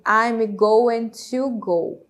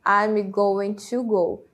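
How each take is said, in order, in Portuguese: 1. 'Going to' é dito como duas palavras completas. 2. 'Going to' é dito como duas palavras completas.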